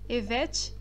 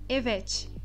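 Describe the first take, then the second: No difference in how they are said.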